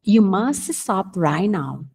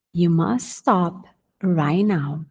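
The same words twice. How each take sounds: First: You must stop right now, slow and even; slow dictation; slow model repeat. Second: You must stop right now, must leaned on, very slow; slow, must emphasised; stress on must. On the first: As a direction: repeat it slowly. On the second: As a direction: lean on must. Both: Shown as a demonstration.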